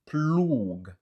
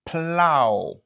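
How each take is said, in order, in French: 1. Il se termine par un son g dur. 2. Il se termine par une voyelle ow ouverte. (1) "ni se pa ploug" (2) "se kon sa l prononse"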